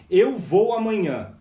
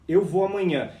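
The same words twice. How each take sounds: First: "eu" stressed, slow and loud; slow demo with "eu" punched. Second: Said in the usual way. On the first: Shown as a demonstration. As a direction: lean hard on "eu", slowly. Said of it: "ó". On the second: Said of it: "Eu tô falando do verbo movimento".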